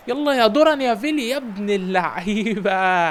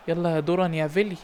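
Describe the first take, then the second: First: Louder, slower praise; excited cheer. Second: Said in the usual way. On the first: Real, not acted. Coach cheers his winger's goal, louder and slower. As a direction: cheer the name as he scores.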